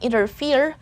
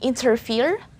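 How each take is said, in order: First: The T after the N is dropped. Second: The T after the N is pronounced. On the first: "that letter T silent T" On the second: "they might sound the letter T"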